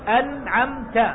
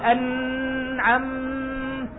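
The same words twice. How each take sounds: First: The nasal sound on the n is kept short. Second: The nasal sound on the n is held long. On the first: The speaker calls it right. "أنت ما تطيل غنة، تقول أنعمت" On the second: The speaker calls it wrong. "ما تقول أنعمت"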